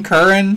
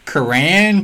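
First: "Curran" as CUR-un, high and loud; "Curran" with a punched-up first syllable; stress on first syllable. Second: "Curran" as kuh-RAN, drawn out; "Curran" with a long, stressed RAN ending; stress on second syllable. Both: Shown as a demonstration. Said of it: "How do you pronounce your last name?".

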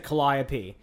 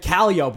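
First: CALLIOPE said kuh-LIE-uh-pee; four syllables in CALLIOPE, stressed on LIE; woman's pronunciation. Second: CALLIOPE said KAL-ee-ope; local guy's pronunciation. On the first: Quoting woman reading the map, CALLIOPE as kuh-LIE-uh-pee. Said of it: "and she said Calliope". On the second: Guy correcting map reader, CALLIOPE as KAL-ee-ope. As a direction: hit the first syllable of CALLIOPE, rhyme the end with rope. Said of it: "the guy literally said". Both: Retold or imitated.

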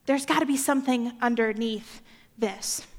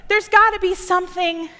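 First: Quieter, gotta leaned on gently; softer reflective. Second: Emphasis on gotta, louder; insistent. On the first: Preacher musing to the congregation, hushed and reflective. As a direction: say it as a thoughtful hunch. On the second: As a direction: press on the word gotta. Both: Shown as a demonstration.

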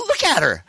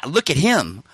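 First: Very high, stammered insistence on her; hammed-up astonished squeal; incredulous insistence. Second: "him" stressed in an ordinary pitch; level retort leaning on "him"; knowing correction. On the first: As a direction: protest in disbelief, imitating himself. Incredulous, points out the girl. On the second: Retold or imitated. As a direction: correct him pointedly on the word "him". Friend's knowing correction, usual pitch.

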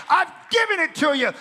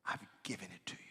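First: Loud, high preaching shout; proclaimed shout. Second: Soft unvoiced whisper. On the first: Acted. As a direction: thunder the promise. God's promise proclaimed loudly. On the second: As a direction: breathe it quietly in awe. Whispered repeat of promise.

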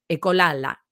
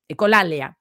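First: Ecolala said wrongly as e-co-LA-la, missing the i; stumbling on ecolala; a mispronounced ecolala; slip of the tongue. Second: Said in the usual way. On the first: Shown as a demonstration. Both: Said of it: "perdón".

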